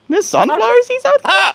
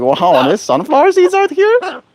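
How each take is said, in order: First: Squeaky, much higher cartoon bird voice; voicing the bird. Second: High, slow, amazed bird voice; voicing the bird. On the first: Owner voicing her bird, even higher squeaky cartoon voice. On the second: Owner voicing her bird's delight at the seeds, high and slow. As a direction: squeak out the bird's wonder slowly. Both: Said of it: "You're like".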